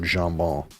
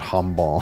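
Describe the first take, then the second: First: The word starts with a soft J sound. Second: The word starts with an H sound. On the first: The speaker calls it right. "you pronounce the J" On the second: The speaker calls it wrong. "not hambon"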